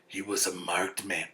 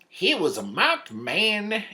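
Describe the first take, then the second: First: It is read in a plain, ordinary voice. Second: It is read in a put-on Western voice.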